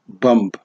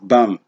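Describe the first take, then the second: First: The final b is sounded. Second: The final b is silent. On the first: The speaker calls it wrong. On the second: The speaker calls it right. "the last B is silent"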